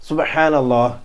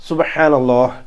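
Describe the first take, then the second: No difference in how they are said.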